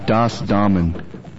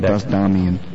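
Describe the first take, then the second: First: The second word sounds like 'Damen'. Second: The second word sounds like 'Damien'. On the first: The speaker calls it right. "let me pronounce it right for the one and only time" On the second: The speaker calls it wrong. "Not Das Damien"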